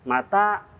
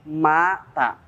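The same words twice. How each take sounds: First: The second vowel is drawn out long. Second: The first vowel is drawn out long. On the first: It asks when. "kalau kita memanjangkan tanya, mata artinya kapan" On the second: It means someone died. "Kalau kita memanjangkan mata, artinya mati"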